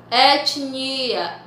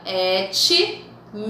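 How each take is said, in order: First: Said in the usual way. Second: "etnia" broken after "et", then "nia"; split into syllables. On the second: Shown as a demonstration. Teacher separating syllables, "etnia" said in pieces. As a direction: pause inside "etnia" between t and n. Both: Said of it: "forem separar as sílabas".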